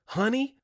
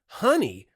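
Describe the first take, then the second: First: High, rising indignant honey; outraged echo. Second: Higher and louder, falling furious honey; angry retort. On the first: Wife throwing the salesman's word back, outraged and high. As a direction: fling the word back in disbelief. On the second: Wife confronting the salesman, furious falling honey. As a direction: slam the word down in anger. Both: Retold or imitated.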